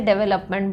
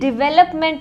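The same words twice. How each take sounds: First: The first syllable has an 'e' vowel. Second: The first syllable has an 'i' vowel. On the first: The speaker calls it wrong. "कौन कौन इसे डेवलपमेंट बोलता है, मैं भी बोलती थी पहले" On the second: The speaker calls it right. "डेवलपमेंट is the correct word. डी ई होता है बट हम इसे प्रोनाउंस डी आई वाला करते हैं"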